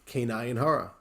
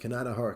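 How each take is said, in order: First: It is said at a careful, full pace. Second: It is said quickly, with words run together.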